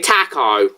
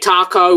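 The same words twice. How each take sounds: First: It is said in a British accent. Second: It is said in an American accent. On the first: "we say taco" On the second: "you say taco"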